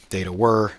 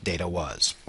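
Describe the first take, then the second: First: "were" set out as the key word; deliberate weight on "were"; stress on WERE. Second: "was" set out as the faulty word; deliberate weight on "was"; stress on WAS. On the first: Lecturer modelling the plural past, stress on "were". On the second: Lecturer showing the form to avoid, stress on "was". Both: Shown as a demonstration. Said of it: "you want to note this".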